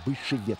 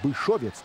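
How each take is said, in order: First: The second vowel sounds like 'e'. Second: The second vowel sounds like 'o'. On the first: "а Бышевец с Е двумя" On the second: "Не Бышовец"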